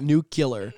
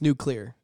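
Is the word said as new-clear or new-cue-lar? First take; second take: new-cue-lar; new-clear. First: It is said with an extra cue syllable. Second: It is said as new plus clear. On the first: The speaker calls it wrong. "Nuclear would be N-U-C-U-L-E-A-R" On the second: The speaker calls it right. "You say new and the word clear together"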